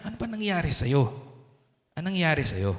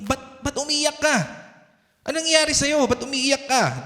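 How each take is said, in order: First: Soft, lowered questioning, imitating a comforter; gently asking. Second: High-pitched questioning, imitating a parent; concerned parent. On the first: Holy Spirit asking the crying believer what happened, gently. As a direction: ask softly what happened, as if consoling. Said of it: "So, tinitignan niya". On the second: Parent asking a crying child what happened, high concerned questioning. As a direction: play a parent asking what's wrong, pitched up. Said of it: "Di ba ganun yung mga parents natin".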